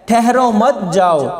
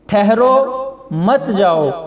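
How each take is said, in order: First: There is a pause after मत, before जाओ. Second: There is a pause after ठहरो, before मत.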